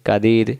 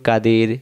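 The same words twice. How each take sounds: No difference in how they are said.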